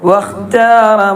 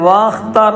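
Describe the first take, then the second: First: The first vowel is short, linked into kh. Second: The first vowel is long, set apart. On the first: The speaker calls it right. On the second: The speaker calls it wrong.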